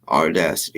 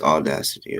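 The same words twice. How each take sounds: First: The first syllable has an R sound. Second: The first syllable has no R sound. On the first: The speaker calls it wrong. "It's not audacity" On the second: The speaker calls it right. "There's no letter R in audacity"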